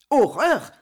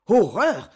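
First: A louder horrified echo, rising at the end; echoed cry. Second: A short growled cry of disgust, falling. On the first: Saint-Marc repeats the duke's cry in horror. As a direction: echo the word in shock. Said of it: "répéta Saint-Marc". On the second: The duke of Guise reacts to the revelation with a growl. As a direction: growl it out in horror. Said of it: "gronda le duc de Guise". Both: A narrator's reading.

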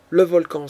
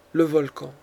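First: "le volcan!" shouted louder in alarm; a sudden loud cry of "le volcan!"; husband wakes and cries out "le volcan!" in alarm. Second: Said in the usual way. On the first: A narrator's reading. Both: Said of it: "s'écria-t-il".

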